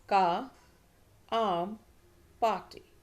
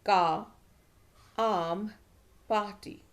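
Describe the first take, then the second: Both takes have the same delivery.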